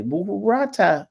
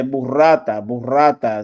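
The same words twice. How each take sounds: First: "burrata" stretched out and swooping high; slow, high-pitched, hammed-up "burrata"; exaggerated pronunciation. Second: "burrata" said the Italian way, with a rolled r; loud, firm Italian demo of "burrata"; Italian pronunciation. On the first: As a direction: draw out "burrata" with a big lift in pitch. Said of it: "that's how you say it". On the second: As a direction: stress the middle of "burrata", rolling the r. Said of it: "That's how you say it in Italian". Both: Shown as a demonstration.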